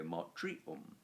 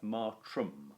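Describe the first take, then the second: First: Matrium said with an extra i, ma-tri-um, three syllables; the mistaken form matrium, sounding out the extra i syllable; wrong form. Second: Matrum said with two syllables, ma-trum, no i sound; the right genitive plural, matrum, said plainly as two syllables; correct form. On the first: Teacher warning the class against saying matrium. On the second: Teacher giving the class the correct form matrum. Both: Shown as a demonstration. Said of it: "It does not go matrium".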